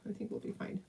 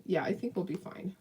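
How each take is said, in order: First: Soft whispered reassurance to herself. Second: Said in the usual way. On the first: Real, not acted. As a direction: breathe it, no voice.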